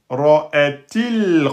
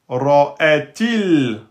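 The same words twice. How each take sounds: The two takes are said the same way.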